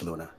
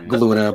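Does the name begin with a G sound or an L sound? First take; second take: L sound; G sound. First: The name starts with an L sound. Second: The name starts with a hard G sound. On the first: The speaker calls it right. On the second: The speaker calls it wrong.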